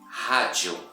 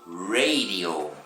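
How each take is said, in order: First: The R sounds like breathy air, like an H. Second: The R is a curled, croaky English R. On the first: "É o som do ar saindo da nossa boca" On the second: "parece o som do sapo na lagoa"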